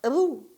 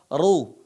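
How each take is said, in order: First: The r sound is thin and light. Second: The r sound is thick and heavy. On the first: The speaker calls it wrong. "bukan dibaca ru" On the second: The speaker calls it right. "maka dibaca tebal, dibaca ru"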